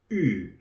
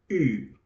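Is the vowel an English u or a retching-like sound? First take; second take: retching-like; retching-like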